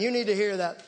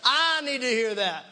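First: Said in the usual way. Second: "I" stretched and punched at the start; stress on I. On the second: Real, not acted. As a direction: lean hard on "I", then let the rest fall. Turns the same remark on himself.

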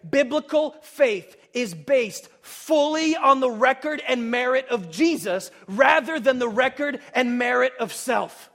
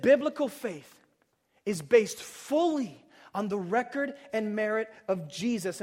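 First: Loud and slow, leaning on "fully" and "merit"; emphatic statement. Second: Quieter and slower, weight on "fully", letting "Jesus" fall; softer restatement. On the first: Preacher stating the big idea to the congregation, loud and slow. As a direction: hammer the big idea home word by word. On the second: Preacher repeating the big idea to the congregation, hushed and deliberate. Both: Shown as a demonstration. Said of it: "I said".

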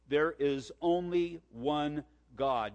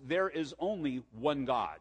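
First: "only one God" slowed right down, word by word; slow emphatic repeat. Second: Said in the usual way. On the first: Real, not acted. Preacher drums the key point into listeners, slow and emphatic.

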